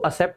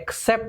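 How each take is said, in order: First: It starts with 'a' and has no k sound. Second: It starts with 'ek', with both k and s. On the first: The speaker calls it wrong. "बहुत सारे लोग इसको असेप्ट पढ़ते हैं, इसको असेप्ट नहीं" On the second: The speaker calls it right. "क और स दोनों का साउंड है"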